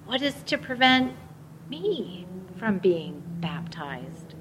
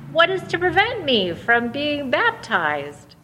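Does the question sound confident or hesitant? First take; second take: hesitant; confident. First: It is asked tentatively, with hesitation. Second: It is asked firmly and with conviction. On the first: He is unsure whether he may be baptized. "with some hesitancy and questioning" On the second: He is sure he should be baptized. "with confidence and conviction"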